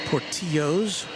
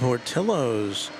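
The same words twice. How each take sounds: First: The name is said with a Spanish pronunciation. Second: The name is said with an English pronunciation.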